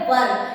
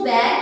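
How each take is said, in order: First: The vowel sounds like 'er' in 'her'. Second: The vowel sounds like 'air' in 'hair'. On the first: The speaker calls it right. "इसका जो pronunciation होता है वो होता है वर" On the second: The speaker calls it wrong. "कई सारे student इसको वैर कह देते हैं, वो आपको नहीं कहना है"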